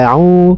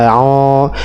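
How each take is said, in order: First: The vowel is said light and thin. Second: The vowel is said heavy and thick. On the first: The speaker calls it right. "tapi tipis ... maka panjangnya pun ikut tipis" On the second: The speaker calls it wrong. "jangan e, au ... au itu tebal ya"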